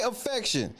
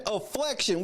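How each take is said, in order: First: Said in the usual way. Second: "afflection" said with an L after the F; added L sound. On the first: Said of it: "She said afflection with an L". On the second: Shown as a demonstration. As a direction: put an L into "afflection": a-FLEC-tion. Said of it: "afflection with an L".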